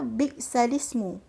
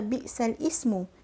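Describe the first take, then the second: First: The glottal stop is dropped; lam links straight on. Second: A glottal stop separates lam from the next word. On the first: The speaker calls it right. "kita baca bi'salismu" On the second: The speaker calls it wrong. "Kita tak baca bi'sal ismu"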